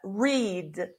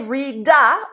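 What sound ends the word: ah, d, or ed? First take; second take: d; ah. First: The word ends cleanly on the 'd' sound. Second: The word ends with an extra 'ah' vowel. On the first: The speaker calls it right. "Just read" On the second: The speaker calls it wrong. "don't say read-a"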